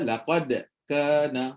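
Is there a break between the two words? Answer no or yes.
yes. There is a break between the two words. The speaker calls it wrong. "Nombor tiga tu terputus. Tak boleh putus"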